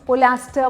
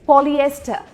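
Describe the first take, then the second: First: The word has an 'a' sound after 'pol'. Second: The word has 'ee-eh' after 'pol'. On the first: The speaker calls it wrong. "पता नहीं क्या क्या मैंने सुना है" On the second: The speaker calls it right. "पूरी तरीके से बोलना है पॉलिएस्टर"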